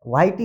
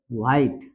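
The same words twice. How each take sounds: First: व्हाइट ही run together as "white-ee"; wrong sounded E. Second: व्हाइट as one low syllable; silent final E. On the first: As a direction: add an "ee" after the T of व्हाइट. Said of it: "नहीं होता". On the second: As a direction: say व्हाइट ending on T, no "ee". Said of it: "silent है". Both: Shown as a demonstration.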